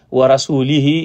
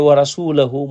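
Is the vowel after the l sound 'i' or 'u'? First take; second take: i; u. First: The vowel after the l is i. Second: The vowel after the l is u. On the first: God disowns both the idolaters and the Messenger. The speaker calls it wrong. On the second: The Messenger also disowns the idolaters. The speaker calls it right.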